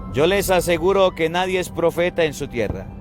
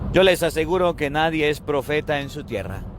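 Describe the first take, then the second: The two takes are said the same way.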